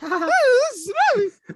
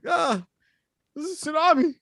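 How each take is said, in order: First: It is said in a higher voice. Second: It is said in a lower voice.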